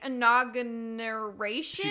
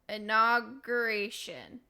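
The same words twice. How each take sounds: First: An extra n sound is inserted in the word. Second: The word is said without an extra n sound. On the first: The speaker calls it wrong. "she keeps putting this random N in there" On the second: The speaker calls it right. "Yes, there you go. Perfect"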